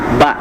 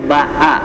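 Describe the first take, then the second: First: The vowel is short, one beat. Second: The vowel is long, two beats. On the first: "ba itu satu harokat" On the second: "Ketika ditambah vokalnya"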